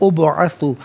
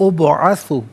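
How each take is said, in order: The two takes are said the same way.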